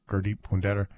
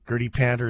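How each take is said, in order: First: The name is said with a native, non-English pronunciation. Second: The name is said with an English-style pronunciation. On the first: "That's how he pronounces his name properly" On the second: "is sort of the English pronunciation"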